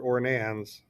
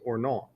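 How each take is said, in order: First: It is read out as spelled, English-style. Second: It is said with the French pronunciation. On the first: The speaker calls it wrong. "I know it looks like it spells Ornans" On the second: The speaker calls it right. "the French pronunciation is Ornon"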